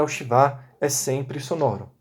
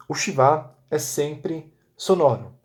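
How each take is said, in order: First: Said in the usual way. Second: Slow rule. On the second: Shown as a demonstration. Teacher dictating the rule to students, slowly. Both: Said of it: "Debaixo da primeira letra de uma palavra".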